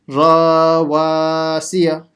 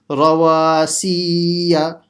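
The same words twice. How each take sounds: First: Both ra and wa are lengthened. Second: Both wa and si are lengthened. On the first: "stretching the ra as well. That's a mistake" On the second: "stretching the si, which is another mistake"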